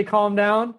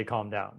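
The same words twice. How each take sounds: First: "calm down" pitched up and pushy, a condescending rise; manipulative calm down. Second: "calm down" low and soft, gently falling; authentic calm down. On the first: Host showing listeners the manipulative way to say "calm down". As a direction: say "calm down" like you're managing them, higher with a rising end. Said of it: "there's a manipulative way to say". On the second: Host showing listeners the authentic way to say "calm down". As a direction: say "calm down" softly and sincerely, much lower and quieter. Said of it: "there's an authentic way to say".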